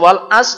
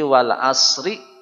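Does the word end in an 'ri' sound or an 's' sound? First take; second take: s sound; ri sound. First: The final r is dropped, ending on s. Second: The final r is sounded with a short i vowel. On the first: "lebih salah lagi, karena ada huruf ro yang tidak dibaca" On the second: "betul, tapi salah berhenti caranya"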